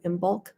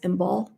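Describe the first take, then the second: First: The final K sound is pronounced. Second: The final K sound is silent. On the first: The speaker calls it wrong. "Some people go Imbolc" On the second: The speaker calls it right. "but it's Imbolc. The C is silent"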